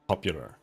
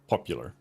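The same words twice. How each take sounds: First: It is said sharp and clear, Swedish style. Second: It is said with a more British sound. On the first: "very easy for it to just become like pop, popular, which you can kind of say it like that" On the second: "I feel like that's maybe a little bit more British"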